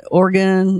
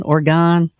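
First: "Oregon" with a weak last vowel, like OR-gun; Oregon ending in -gun. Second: "Oregon" with a full open last vowel, like OR-gone; Oregon ending in -gone. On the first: Host asking caller how his state is said, "Oregon" as OR-gun. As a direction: say "Oregon" to rhyme its end with "gun". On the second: Host asking caller how his state is said, "Oregon" as OR-gone. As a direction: say "Oregon" to rhyme its end with "gone". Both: Shown as a demonstration. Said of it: "is it Oregon or Oregon".

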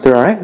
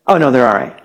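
First: Questioning echo, rising at the end; doubting guest. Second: Casually dismissive reassurance, falling at the end; unbothered parent. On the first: Worried guest to a calm parent, doubtful rising question. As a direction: repeat it back as a disbelieving question. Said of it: "you're a guest". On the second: Parent to a worried guest after hearing cries, casual dismissal. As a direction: brush off the worry like a parent. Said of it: "but the parent's going". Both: Acted.

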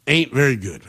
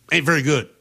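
First: "Ain't" hit first, lower and falling; grim repeat punching "Ain't"; stress on ain't. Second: "very" leaned on, falling; stress on very. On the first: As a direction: push the word "Ain't" in "Ain't very good". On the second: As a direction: land hard on "very" in "Ain't very good". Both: Real, not acted. Repeating his verdict for emphasis.

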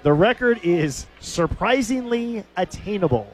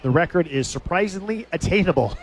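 First: Savoured repeat. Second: Said in the usual way. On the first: Retold or imitated. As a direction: draw out "surprisingly attainable" with relish.

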